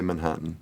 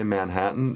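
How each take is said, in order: First: It is said with a New York accent. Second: It is said without a New York accent. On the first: "they say Manhattan" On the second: "My children don't say Manhattan"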